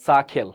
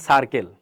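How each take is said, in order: First: সাখেল with the R dropped; correct pronunciation. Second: সার্কেল with a sounded R; R kept in সার্কেল, K unaspirated; everyday mispronunciation. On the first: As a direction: say সাখেল as "saa-khel", aspirated. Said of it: "But সঠিকভাবে কি হবে?". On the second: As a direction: say সার্কেল as "sar-kel". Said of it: "আমি normally যদি বলি তাহলে কেমন হবে". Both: Shown as a demonstration.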